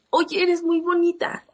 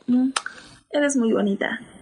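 First: It sounds like a sincere compliment. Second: It sounds like a flirtatious come-on.

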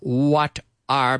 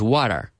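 First: The two words are said separately. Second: The two words run together as one.

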